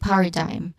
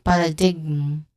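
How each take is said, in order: First: No g sound is pronounced near the end. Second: A g sound is pronounced near the end. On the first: The speaker calls it right. "We say paradigm with a silent letter G" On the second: The speaker calls it wrong. "We do not say paradigm"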